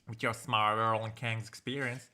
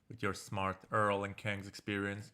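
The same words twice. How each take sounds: First: It is read with a Southern accent. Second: It is read in a flat, plain voice. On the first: "We'll make him a bit southern" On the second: "I don't like his flat tone"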